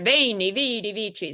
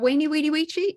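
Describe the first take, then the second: First: The words begin with a V sound. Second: The words begin with a W sound. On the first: "I think he was up there" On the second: "no, Jane, it's "Weni, Weedy, Weechi,""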